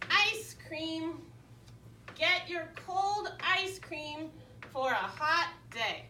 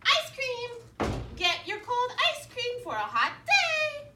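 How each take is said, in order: First: It is read flatly, just sounding out words. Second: It is read smoothly in a lively character voice.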